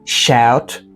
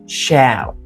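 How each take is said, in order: First: The final T is fully released. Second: The final T is stopped, not released. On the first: "you can say" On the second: "to sound more native, you should say"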